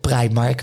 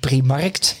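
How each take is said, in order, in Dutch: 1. De naam eindigt op een k-klank. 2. De naam eindigt op een toegevoegde t-klank.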